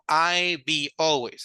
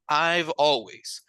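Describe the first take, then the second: First: The contraction is said with a b sound. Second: The contraction is said with a v sound. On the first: The speaker calls it wrong. "no I be always" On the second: The speaker calls it right. "Sino I've always"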